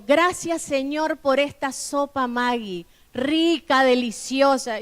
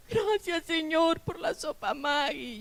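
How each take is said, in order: First: Said in the usual way. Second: Put-on high, soft, tearful child's prayer; a retold tearful little grace; imitating crying children. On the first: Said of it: "Y yo". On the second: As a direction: mimic the kids praying through tears.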